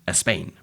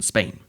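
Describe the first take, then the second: First: An extra vowel sound comes before the S. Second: The word starts directly with the S sound. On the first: The speaker calls it wrong. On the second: The speaker calls it right.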